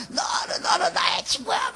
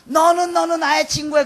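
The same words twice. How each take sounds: First: Sung, drawn-out, high strained singer's cry; sung, mimic a singer pouring it out through tears; imitated tearful singing. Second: Said in the usual way. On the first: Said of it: "막 눈물을 흘리면서 막 부르는데요". (sung, 눈물 흘리며 부르는 흉내) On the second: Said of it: "그런 거 불렀어요".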